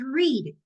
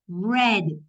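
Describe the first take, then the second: First: It is said with the present-tense vowel. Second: It is said with the past-tense vowel. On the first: The action happens now. "en presente es read" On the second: The action already happened. "La pronunciación en pasado es read"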